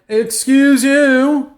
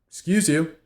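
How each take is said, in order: First: It is said in a rude tone. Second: It is said in a polite tone.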